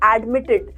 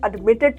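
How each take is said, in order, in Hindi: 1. पहला अक्षर 'ad' जैसा सुनाई देता है। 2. पहला अक्षर 'ud' जैसा सुनाई देता है।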